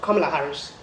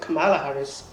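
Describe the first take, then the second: First: The first syllable sounds like the word 'comma'. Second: The first syllable does not sound like 'comma'. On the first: The speaker calls it right. "First you say comma like a comma in a sentence" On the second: The speaker calls it wrong. "I was mispronouncing it"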